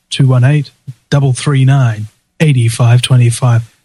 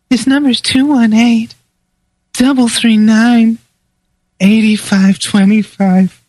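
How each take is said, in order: First: It is said in his own male voice. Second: It is said in a put-on sexy female voice.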